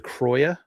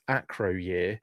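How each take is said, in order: First: The name is said as a plus Croyer. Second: The name is said as Acro plus year. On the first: This is the pronunciation the speaker thinks is correct. The speaker calls it right. "but it's a Croyer" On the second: This is the speaker's habitual pronunciation. The speaker calls it wrong. "I've always pronounced this Acro Year"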